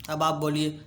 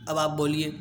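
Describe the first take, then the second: No difference in how they are said.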